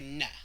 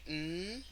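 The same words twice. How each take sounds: First: An n sound followed by an added vowel. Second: A bare n sound with no vowel after. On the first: The speaker calls it wrong. "we don't say N ... that's actually two sounds" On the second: The speaker calls it right. "so we would say N, ... Just keep that tongue up there"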